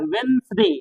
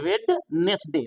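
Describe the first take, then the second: First: वेंसडे as "wens-de", no first d; silent-D pronunciation. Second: वेडनेसडे with the first d sounded; mistaken pronunciation. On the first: Shown as a demonstration. Teacher corrects pupils, वेंसडे with silent d. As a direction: go straight from n to s in वेंसडे. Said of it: "लेकिन यहाँ होगा". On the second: Retold or imitated. Teacher mimics how we misread it, वेडनेसडे with audible d. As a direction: read वेडनेसडे as spelt, "wed-nes-de". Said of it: "लिखने में तो वेडनेसडे बोलेंगे".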